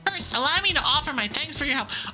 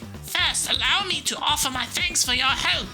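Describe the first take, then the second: First: It is read in the speaker's natural accent. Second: It is read in a put-on foreign accent.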